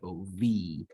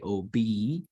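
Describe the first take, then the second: First: The middle consonant is a V sound. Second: The middle consonant is a B sound. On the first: This is the Hebrew reading. "it loses its dagesh and it gets pronounced as O V" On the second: This is the English reading. "in English, we could say O B"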